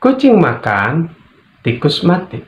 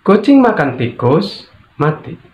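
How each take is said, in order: First: Kucing makan, pause, then tikus mati with a rise; pause after makan. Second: Kucing makan tikus in one high rising run, then a short mati; pause after tikus. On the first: Teacher showing the second intonation, pausing after makan. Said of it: "Yang berikutnya". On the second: Teacher showing the third intonation, pausing after tikus. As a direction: break only before mati. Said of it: "Yang ketiga". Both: Shown as a demonstration.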